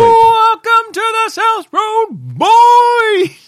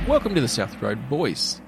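First: It is said loudly with high energy. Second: It is said in a plain, normal way.

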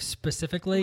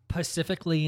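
First: The word begins with an s sound. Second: The word begins with a p sound. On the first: The speaker calls it right. "instead of specifically" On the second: The speaker calls it wrong. "Who say words the wrong way"

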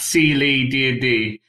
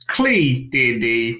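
First: The first part is two syllables, C then Lee. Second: The first part is one syllable, Klee. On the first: This is the intended name. The speaker calls it right. "on Twitter it's at C Lee D&D" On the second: This is how the name looks when written. The speaker calls it wrong. "not Klee D&D, which it looks like, and how I pronounced it"

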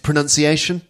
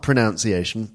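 First: The second syllable sounds like 'nun'. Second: The second syllable sounds like 'noun'. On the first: The speaker calls it right. "actually, it's pronunciation" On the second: The speaker calls it wrong. "not pronunciation"

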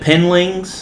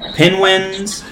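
First: The word is said as penlings. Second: The word is said as penwins. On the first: "He said penlings" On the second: "He couldn't say it right"

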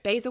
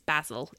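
First: The word is said with an American pronunciation. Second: The word is said with a British pronunciation. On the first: "basil is fine if you're American" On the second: "but it's basil if you're British"

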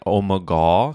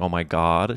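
First: The last word is said in an altered form. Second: The last word God is said in full. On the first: The speaker avoids saying the word God outright. "kept saying, oh my God, because she didn't want to say" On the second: The word God is said outright. "She didn't want to pronounce the full G-O-D"

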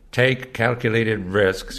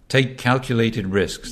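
First: It is spoken in an American accent. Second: It is spoken in a British accent. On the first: "I keep doing the American" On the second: "if Patton had been British, he would have said"

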